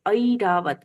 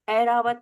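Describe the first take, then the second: First: The first vowel glides from 'a' to 'i'. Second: The first vowel is a plain 'e' sound. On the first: The speaker calls it right. "उसमें दो स्वर सुनाई देते हैं अ और इ" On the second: The speaker calls it wrong. "ऐ की मात्रा को हम प्रायः बोलते हैं ए, ... नहीं बोलना है"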